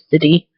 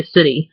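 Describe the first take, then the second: First: "city" as SIT-tee; pronounced T. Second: "city" as SIDDY; softened T. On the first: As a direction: release a clear t in city. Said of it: "I never say city". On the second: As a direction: tap the t of city like a d. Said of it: "I always say city". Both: Shown as a demonstration.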